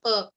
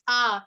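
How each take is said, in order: First: The vowel is said short and clipped. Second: The vowel is held long and stretched.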